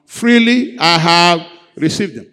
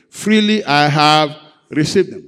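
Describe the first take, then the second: First: Louder, rallying the congregation. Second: Said in the usual way. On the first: Shown as a demonstration. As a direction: lift it up, say it louder. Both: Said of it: "Let's say it louder".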